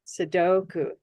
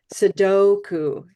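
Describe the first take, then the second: First: Said in the usual way. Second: Sudoku said slowly, the DO stretched and louder; slow modeled stress. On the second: Shown as a demonstration. Teacher demonstrates English stress on Sudoku, slow and emphatic. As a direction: lean on the DO in Sudoku, drawn out. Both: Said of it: "if we say it in English".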